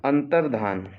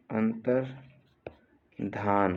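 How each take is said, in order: First: Said in the usual way. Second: "अंतर्धान" slow, long gap after अंतर; split slowly for dictation. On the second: Shown as a demonstration. Teacher dictating a spelling, अंतर्धान slowly in two parts. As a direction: break "अंतर्धान" into अंतर, pause, धान.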